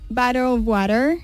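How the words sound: It is said in an American accent.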